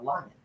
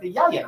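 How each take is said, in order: First: The word begins with an l sound. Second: The word begins with a y sound. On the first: An adult is correcting the child. The speaker calls it right. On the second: A small child is mispronouncing the word. The speaker calls it wrong.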